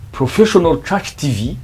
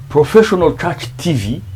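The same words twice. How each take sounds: The two takes are said the same way.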